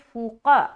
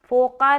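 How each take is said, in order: First: The first vowel is a long u. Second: The first vowel sounds like o. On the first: The speaker calls it right. "बल्कि फूक़ा" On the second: The speaker calls it wrong. "फ़ोक़ा नहीं बोलना"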